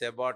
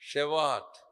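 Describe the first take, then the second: First: It starts with s and has a b. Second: It starts with sh and has a v. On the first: This is the English Bible form. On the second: This is the Hebrew pronunciation. "Hebrew భాష ప్రకారం ప్రొనౌన్సియేషన్"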